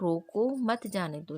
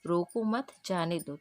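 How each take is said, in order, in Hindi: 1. विराम "रोको" के ठीक बाद है। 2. विराम "मत" के ठीक बाद है। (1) "यहाँ पर रोको जो है और यहाँ पर क्या लगा है? अल्प अल्प विराम लगा है।" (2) "यहाँ पर उसको रोक नहीं रहा है"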